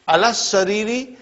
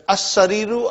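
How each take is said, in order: First: "alas sariri" run together, doubled s, ee ending; higher, join "alas" to "sariri" without a break; hamza dropped. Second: "as sariru" opening on a, lam silent, oo ending; hamza sounded. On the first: Teacher showing hamza and lam silent, "alas sariri" run together. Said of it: "I did not pronounce hamza". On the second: Teacher showing only hamza is said, "as sariru" without l. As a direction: start "as sariru" on the a, skip the l. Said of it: "I only pronounce hamza". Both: Shown as a demonstration.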